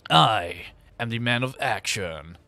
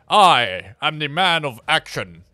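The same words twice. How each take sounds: First: It is said in a Duke Nukem voice. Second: It is said in a plain, natural voice.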